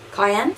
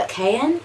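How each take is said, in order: First: "Cayenne" with KY as first syllable; alternative pronunciation. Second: "Cayenne" with KAY as first syllable; first pronunciation. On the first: Trying the shade name another way, "Cayenne" said KY-en. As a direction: say "Cayenne" as KY-en, rhyming with "eye". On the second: Naming the eyeshadow shade, "Cayenne" said KAY-en. Says the shade name two ways. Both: Shown as a demonstration.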